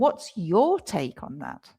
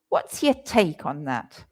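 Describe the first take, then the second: First: 'Your' is clearly stressed. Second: 'Your' is reduced and unstressed. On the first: The speaker is asking a different person. "And then I start stressing the your" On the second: The speaker is asking for an opinion. "And your is reduced to your"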